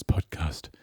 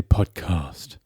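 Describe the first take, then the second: First: "podcast" with a short flat a in "cast"; incorrect for the character. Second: "podcast" as a slow "pod-cahst"; character's pronunciation. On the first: Host quoting the character's slip, "podcast" with short "cast". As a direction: say "podcast" the ordinary way, short vowel in "cast", low voice. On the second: Host showing how the character says it, slow broad "pod-cahst". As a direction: stretch "podcast" with a long broad a in "cast". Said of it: "He would say podcast". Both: Pretend.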